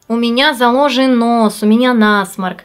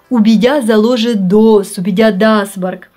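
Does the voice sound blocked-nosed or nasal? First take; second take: nasal; blocked-nosed. First: The sound is sent into the nose. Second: The nose is shut off, like a blocked nose. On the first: "Нос у вас не заложен, вы просто в нос поете" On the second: "когда небная занавеска закрыта, тогда у вас получится именно так"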